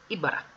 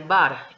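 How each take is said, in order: First: The first vowel is kept, short and light. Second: The first vowel is dropped completely. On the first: The speaker calls it right. "es ibara" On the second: The speaker calls it wrong. "si quitamos la I completamente diría bar, y no es correcto"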